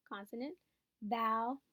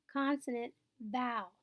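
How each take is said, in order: Both takes have the same delivery.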